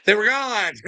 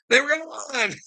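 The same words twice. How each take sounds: First: Laughing through the words. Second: Higher, slower, laughing it out. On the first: Gleeful laugh telling a viewer the shift vanished. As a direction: giggle it out, tickled. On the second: Laughing harder to the viewer, repeating it higher. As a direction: stretch it with a giggle. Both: Real, not acted.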